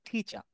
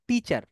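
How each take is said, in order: First: The first t is breathy and aspirated. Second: The first t is plain and unaspirated. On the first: The speaker calls it right. "ওরা বলে কি টিচার" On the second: The speaker calls it wrong. "Not টিচার"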